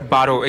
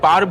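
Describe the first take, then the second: First: The word ends with a final 'o' vowel. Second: The word ends on the 'r' consonant.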